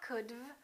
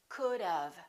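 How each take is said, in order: First: The V follows directly with no vowel before it. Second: A short uh vowel comes before the V. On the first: The speaker calls it wrong. "It's not could've" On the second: The speaker calls it right. "We put a little uh sound in there and it sounds like this"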